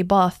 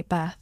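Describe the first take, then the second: First: Said in the usual way. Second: "Bath" said the American way, with the short front vowel of "cat"; American pronunciation. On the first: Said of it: "if I say Bath". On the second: Shown as a demonstration. Comparing accents for classmates, "Bath" with the American short a of "cat". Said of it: "then Americans say Bath".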